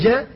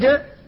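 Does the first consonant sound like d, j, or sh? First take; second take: sh; d. First: The first consonant is soft, close to sh. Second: The first consonant is hard, close to d. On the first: "أخذ بالانفتاح ولم يأخذ بالشدة فجعلها قريبة من الشين" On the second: "أخذ بالشدة فجعلها قريبة من الدال ولم يأخذ بالانفتاح"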